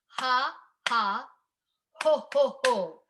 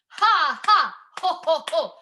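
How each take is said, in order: First: The syllables are said at a slower pace. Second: The syllables are said at a fast pace.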